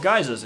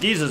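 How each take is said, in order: First: The first vowel sounds like eye. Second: The first vowel sounds like ee.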